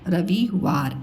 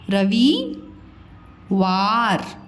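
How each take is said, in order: First: The word is said smoothly without any pause. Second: The word is broken into parts with pauses. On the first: "साथ ऐसे बोलना है आपको" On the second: "जहाँ पे मात्राएं होती ना वहाँ थोड़ा सा रुक के बोला कीजिए"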